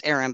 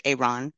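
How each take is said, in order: First: Aaron said as AIR-un, short first vowel; spelled pronunciation. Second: Aaron said AY-ron, long first vowel and open second; his pronunciation. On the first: Woman showing how the name Aaron is spelled, AIR-un. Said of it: "It's spelled Aaron". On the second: Woman repeating how the driver says his name Aaron, AY-ron. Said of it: "he pronounced it Aaron". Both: Shown as a demonstration.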